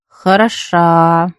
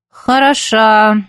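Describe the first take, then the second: First: Slow, drawn-out sarcastic word. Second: Drawn out. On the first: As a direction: stretch Хороша out slowly and coldly. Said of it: "протянула она". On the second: Teacher repeats, disgusted. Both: A narrator's reading.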